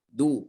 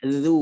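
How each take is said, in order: First: The consonant is a plain stopped d sound. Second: The consonant is a buzzing z-like sound. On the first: The speaker calls it wrong. "terdengarnya dal ya" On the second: The speaker calls it right.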